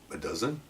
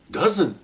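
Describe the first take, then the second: First: Low, very soft, tentative estimate; offhand and hushed; understated answer. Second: High-pitched disbelieving repeat; imitating a stunned rookie; astonished echo. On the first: Retold or imitated. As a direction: drop it almost under your breath. His modest answer to partner. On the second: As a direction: echo it back amazed. Partner astonished by the number.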